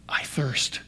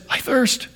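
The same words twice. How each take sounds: First: Very soft, faint whisper; hushed, acted last-breath whisper; whispered dying words. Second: Soft but high, strained-upward call; acted cry of thirst, pitched up; higher-pitched plea. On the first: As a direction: barely voice it, as if parched and spent. Dying words retold from the cross. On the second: Same words, now before the victory shout.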